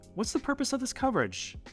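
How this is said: The question is said with a high pitch. It comes across as less confident, though meant to sound interested. The speaker calls it wrong. "You see how I kind of went high with that?"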